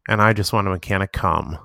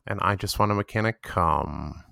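First: The final syllable is said with strong emphasis. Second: The final syllable is stretched out long. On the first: "really emphasize the last part" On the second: "really draw out the cum"

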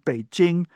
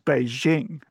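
First: The j is a hard sound like in jingle. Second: The j is a soft sound like French je. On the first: The speaker calls it right. "that's just the jing of jingle bells" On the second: The speaker calls it wrong. "that je sound doesn't exist in Chinese"

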